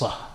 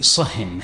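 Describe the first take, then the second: First: The word ends without an n sound. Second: The word ends with an n sound. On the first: "it can be pronounced sah" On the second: "can be pronounced with a tanween"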